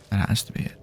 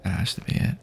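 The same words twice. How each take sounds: The two takes are said the same way.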